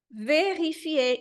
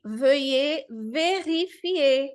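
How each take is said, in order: First: "vérifier" as veʁifie, slow and falling; slow French. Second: "veuillez vérifier" as vøe veʁifie, slow; slow French. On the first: Teacher repeating the word slowly. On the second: Teacher reading the phrase slowly. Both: Shown as a demonstration. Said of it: "aí eu já tô vendo aqui".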